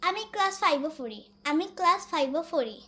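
It is said in a Sylheti dialect pronunciation.

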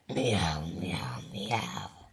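It is meowed in an angry voice.

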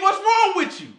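It is said in an aggressive, forceful tone.

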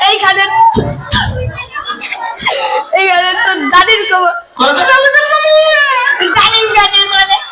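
The line is recited with laughter.

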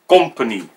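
The word is said with a Dutch accent. The speaker calls it wrong. "I really don't like the Dutch pronunciation"

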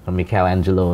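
The name is pronounced the Italian way.

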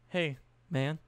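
The greeting sounds casual and nonchalant.

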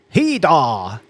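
It is said in an odd, quirky accent.

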